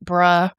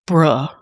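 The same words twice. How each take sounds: First: It sounds agreeing. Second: It sounds disappointed.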